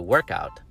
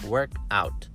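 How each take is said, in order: First: The stress falls on the first part, work. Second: The stress falls on the second part, out. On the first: It names an exercise session. "As a noun, the stress is on a different syllable" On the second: It is an action, like exercising or succeeding. "But as a verb, you say work out"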